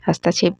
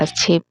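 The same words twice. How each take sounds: First: हस्तक्षेप said as "hastachhep"; "has-ta-chhep" for हस्तक्षेप; wrong pronunciation. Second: हस्तक्षेप said as "hastchhep"; "hast-chhep" for हस्तक्षेप; corrected pronunciation. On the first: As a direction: add a vowel after the t in हस्तक्षेप. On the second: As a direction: run the consonants together in हस्तक्षेप. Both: Shown as a demonstration. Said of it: "भी नहीं होता है".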